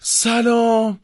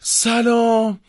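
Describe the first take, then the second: First: The greeting sounds worried and concerned. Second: The same.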